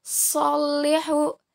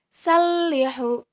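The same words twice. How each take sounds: First: Salihu slowly, heavy "sol" with held L; letter sad. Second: Salihu slowly, light "sal" with held L; letter sin. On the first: Teacher contrasts two letters for students, Salihu with heavy "so". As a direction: say Salihu as "sollihu". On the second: Teacher contrasts two letters for students, salihu with light "sa". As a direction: say salihu as "sallihu", thin S. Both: Shown as a demonstration. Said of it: "Perbandingan antara huruf so dan huruf sa".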